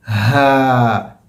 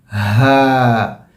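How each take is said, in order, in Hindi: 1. हवा खुले गले से आसानी से निकलती है। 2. हवा खुले गले से आसानी से निकलती है।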